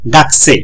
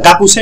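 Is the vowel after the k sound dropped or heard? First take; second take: dropped; heard. First: The u after k is dropped. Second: The u after k is fully pronounced. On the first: The speaker calls it right. "বলবো গাকসে" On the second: The speaker calls it wrong. "গাকুসে না বলে"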